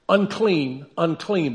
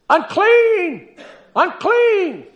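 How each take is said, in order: First: It is read flatly and quietly. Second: It is called out loudly as a warning.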